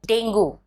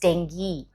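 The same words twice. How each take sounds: First: The word ends with a 'go' sound. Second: The word ends with a 'ghee' sound. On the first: The speaker calls it wrong. "The word is not go" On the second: The speaker calls it right. "but ghee"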